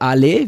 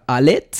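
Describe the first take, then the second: First: The name ends in a vowel, t silent. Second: The final t sound is clearly pronounced. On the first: The name is said the French way. The speaker calls it wrong. "der Name ist eigentlich französisch" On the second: The name is said the German way. The speaker calls it right. "immer mit T ausgesprochen"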